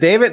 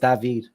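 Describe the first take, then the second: First: The name is said with plain English pronunciation. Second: The name is said with Spanish-style pronunciation. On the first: The speaker calls it wrong. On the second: The speaker calls it right.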